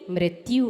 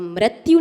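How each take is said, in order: First: The r sound is said with an 'i' vowel. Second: The r sound is said with an 'a' vowel. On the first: The speaker calls it right. "होती है" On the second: The speaker calls it wrong. "नहीं होती"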